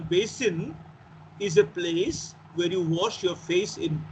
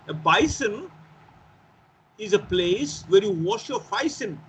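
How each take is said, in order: First: It is said in a standard English accent. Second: It is said in a Cockney accent.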